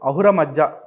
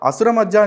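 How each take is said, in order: First: The first word has an H sound in the middle. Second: The first word has an S sound in the middle. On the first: The speaker calls it right. "అహుర మధ్య అని చెప్పేసి అంటారు" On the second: The speaker calls it wrong. "ఆయన్ని అసుర మధ్య అని చదవరు"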